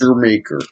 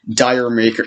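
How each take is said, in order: First: The title begins with a 'jer' sound. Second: The title begins with a 'dire' sound. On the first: The speaker calls it right. "So that's what it's pronounced" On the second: The speaker calls it wrong. "No, it's not Dire Maker"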